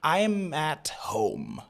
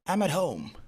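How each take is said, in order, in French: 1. Le T dans 'at' est clairement prononcé. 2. Le T dans 'at' est fortement réduit. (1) "Normalement, c'est comme ça que vous allez le dire" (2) "on a réduit considérablement le T"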